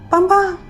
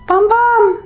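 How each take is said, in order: First: The call is said fairly quietly. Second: The call is said much louder.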